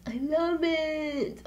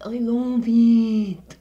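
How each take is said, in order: First: Higher, slow swoon over it; drawn-out gush. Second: Louder, very slow proclamation; shouting her love for the phone; loud emphatic declaration. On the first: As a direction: stretch the words out dreamily. Repeating her love of phone. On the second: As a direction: belt it out emphatically. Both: Real, not acted.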